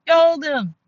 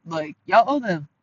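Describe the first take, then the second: First: High, loud, insistent repeat; emphatic shout. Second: Said in the usual way. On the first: Real, not acted. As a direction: yell the demand, pitch way up. Repeats the demand, second louder.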